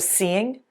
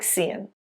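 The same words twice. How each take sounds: First: The ending is a full 'ing' sound. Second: The ending is reduced to an 'in' sound. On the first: "ing verbs always reduce to in" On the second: "sounds like"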